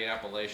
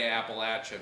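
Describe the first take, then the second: First: It is said with the northern pronunciation. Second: It is said with the southern pronunciation. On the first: It marks the speaker as an outsider in the south. The speaker calls it wrong. "because if you say Appalachia, they'll throw an Appalachia" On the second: It fits what people in the south expect. The speaker calls it right. "If you're headed to the south, you better say"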